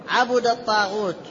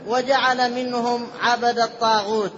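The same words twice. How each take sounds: First: عبد said 'abuda, u after b; short u on the ba of عبد; damma reading. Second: عبد said 'abada, a after b; short a on the ba of عبد; fatha reading. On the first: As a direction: say عبد الطاغوت as 'abudat-taghut. Rereads after teacher's prompt. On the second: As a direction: say عبد الطاغوت as 'abadat-taghut. Reading before teacher's prompted correction. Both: Shown as a demonstration.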